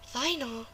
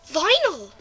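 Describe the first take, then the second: First: It is said at normal, softer volume. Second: It is said louder.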